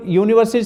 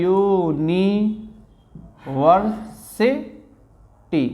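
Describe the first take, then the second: First: Said in the usual way. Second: "यूनिवर्सिटी" very slowly, split यू-नि-वर-सि-टी; syllable-by-syllable pronunciation. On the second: Shown as a demonstration. Teacher showing the class the pronunciation, "यूनिवर्सिटी" syllable by syllable. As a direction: stretch each syllable of "यूनिवर्सिटी", pausing between parts. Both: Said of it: "अब इसका उच्चारण होता है".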